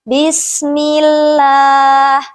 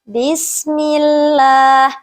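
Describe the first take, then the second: No difference in how they are said.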